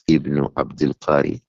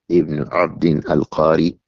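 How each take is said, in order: First: The name is read as Abdul Qari. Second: The name is read as Abdin al-Qari. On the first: The name is read as a possessive compound. The speaker calls it wrong. "not Ibn Abdul Qari" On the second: The name refers to a man from the village of Qara. The speaker calls it right. "He is Ibn Abdin al-Qari"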